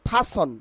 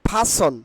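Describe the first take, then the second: Both takes have the same delivery.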